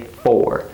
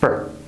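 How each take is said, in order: First: The word is said in full with a clear vowel. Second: The word is reduced and said very fast. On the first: The speaker calls it wrong. "we don't say for" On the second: The speaker calls it right. "It's reduced. It's said very fast"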